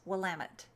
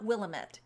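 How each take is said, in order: First: The word ends like 'damn it'. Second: The word does not end like 'damn it'. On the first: The speaker calls it right. "It's like, damn it" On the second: The speaker calls it wrong. "It's not Willamette"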